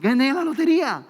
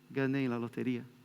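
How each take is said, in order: First: It is said in an excited, joyful tone. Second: It is said in a flat, unexcited tone.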